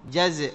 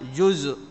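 First: The first vowel is a short 'a' sound. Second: The first vowel is not an 'a' sound. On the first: The speaker calls it right. "جزء بفتح الجيم وإسكان الزاي" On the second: The speaker calls it wrong. "وليس جزء"

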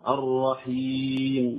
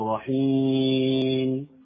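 First: The long vowel is clear, with no nasal sound. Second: The long vowel is nasalized through the nose. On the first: The speaker calls it right. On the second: The speaker calls it wrong.

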